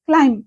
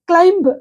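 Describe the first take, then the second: First: The final b is silent. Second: The final b is sounded. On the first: The speaker calls it right. "బి ఇక్కడ లేదన్నట్టుగా మనం పలకాలి" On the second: The speaker calls it wrong. "క్లైంబ్ కాదు"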